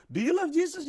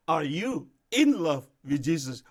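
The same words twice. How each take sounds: First: Said in the usual way. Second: Slow, with in stressed and a falling end. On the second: Shown as a demonstration. Pastor asking a believer, stressing in, slowly. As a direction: lean hard on the word in, slowly. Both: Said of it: "Kan beda ya".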